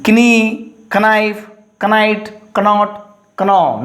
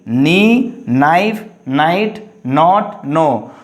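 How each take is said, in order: First: KNEE, KNIFE, KNIGHT, KNOT, KNO each begun "k-n", pitched up; wrong sounded K. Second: KNEE, KNIFE, NIGHT, NOT, NO each begun on N; silent K. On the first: Teacher shows students the mistake, KNEE to KNO with K voiced. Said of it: "you don't pronounce". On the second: Teacher corrects for students, KNEE to NO with silent K. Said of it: "K are understood or silent". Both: Shown as a demonstration.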